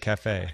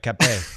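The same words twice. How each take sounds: First: The F sound is said as an F. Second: The F sound is said as a P. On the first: "instead of cafe" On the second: "because the F becomes a P a lot of times"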